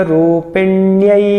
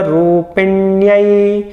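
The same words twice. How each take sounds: The two takes are said the same way.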